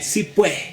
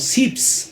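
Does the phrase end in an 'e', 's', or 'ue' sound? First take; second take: ue; s. First: It is two words ending in ue, no final s. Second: It is one clipped syllable ending in s. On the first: This is how people in Santa Cruz say it. "en Santa Cruz dirá si pue" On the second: This is how people from La Paz say it. "nosotros los paseños generalmente decimos sips"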